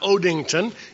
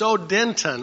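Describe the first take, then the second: First: The middle syllable sounds like 'ding'. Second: The middle syllable sounds like 'den'. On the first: The speaker calls it wrong. "It's not Odington" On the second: The speaker calls it right. "it's Odenton, O-D-E-N-T-O-N"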